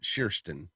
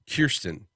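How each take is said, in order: First: The name begins with a soft SH sound. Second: The name begins with a hard K sound. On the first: It is said the way the owner says it. The speaker calls it right. "Sherston is how you pronounce it" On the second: It is read the way it is spelled. The speaker calls it wrong. "whose name looks like Kirsten"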